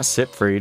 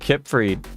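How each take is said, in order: First: The name begins with a hissing S sound. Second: The name begins with a hard K sound. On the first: The speaker calls it wrong. "not Sipfried" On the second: The speaker calls it right. "I call him Kipfried"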